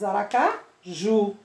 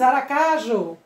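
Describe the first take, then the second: First: "Aracaju" with JU set apart and held; stress on final JU. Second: "Aracaju" with CA long and strong, JU weak; wrong stress on CA. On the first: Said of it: "você diz Aracaju". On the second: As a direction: misplace the stress onto CA in "Aracaju". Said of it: "Você não diz Aracaju". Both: Shown as a demonstration.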